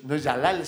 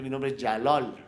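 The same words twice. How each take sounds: First: JALAL with a plain open A in the second syllable; wrong pronunciation. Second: JALAL with the second A rounded to O; correct pronunciation. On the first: Guest showing how his name is not said, mispronounced. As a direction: say Jalal as spelt, with a clear A. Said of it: "porque realmente mi nombre es Jalal". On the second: Guest teaching host his real name, correctly pronounced. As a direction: say Jalal like "ya-LOL". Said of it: "así debería pronunciarse". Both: Shown as a demonstration.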